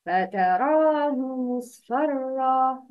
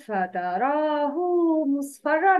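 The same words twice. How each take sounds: First: فتراه with the ha joined to a short u, فتراهُ مصفرا; correct tajweed reading. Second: فتراه with the ha lengthened into a long hoo; wrong tajweed reading. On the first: Teacher demonstrating فتراه said with a short hu. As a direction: read فتراه ending in a short hu, no long vowel. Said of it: "The correct pronunciation is". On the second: Teacher showing the mistake, فتراه with a long ha. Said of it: "No, it's wrong". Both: Shown as a demonstration.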